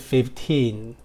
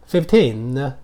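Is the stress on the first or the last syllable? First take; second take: first; last. First: The stress is on the first syllable. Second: The stress is on the last syllable. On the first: The speaker calls it wrong. "不是15" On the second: The speaker calls it right. "它是15, 16，重音在后面"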